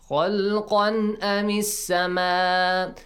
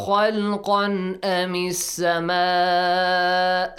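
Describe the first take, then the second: Both takes have the same delivery.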